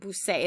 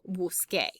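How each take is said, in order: First: The last syllable starts with an s sound. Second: The last syllable starts with a k sound. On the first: The speaker calls it wrong. "it just doesn't sound right" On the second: The speaker calls it right. "Naturally, you want to say yo busqué"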